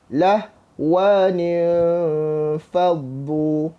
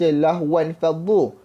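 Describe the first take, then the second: First: An extra 'nin' links the two words. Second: The first word ends directly in 'wan'. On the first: This is the reading after applying the rule. "selepas kita dah tukar mengikut kaedah" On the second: This is the original reading before the rule. "asalnya kita baca"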